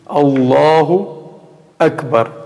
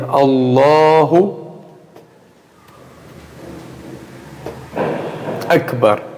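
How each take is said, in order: First: A short pause separates the two words. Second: A long silence separates the two words. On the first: The speaker calls it right. "Esse silêncio for curto" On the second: The speaker calls it wrong. "ficar em silêncio um tempo"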